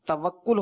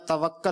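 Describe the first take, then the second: First: The vowel after the double k is u. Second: The vowel after the double k is a. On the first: The speaker calls it right. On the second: The speaker calls it wrong.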